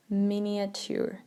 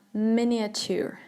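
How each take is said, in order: Both takes have the same delivery.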